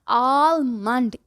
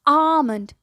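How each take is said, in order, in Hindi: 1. 'l' स्पष्ट रूप से बोला जाता है। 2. 'l' मौन रहता है। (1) "ये आलमंड क्या होता है भाई?" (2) "इट्स आमंड"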